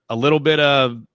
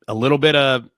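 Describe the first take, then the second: No difference in how they are said.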